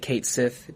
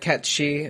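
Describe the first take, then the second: First: The name sounds like 'kate sith', ending in th. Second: The name sounds like 'ket-shee', no th sound. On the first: The speaker calls it wrong. "I'm still gonna say Kate Sith" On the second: The speaker calls it right. "the right way to say it"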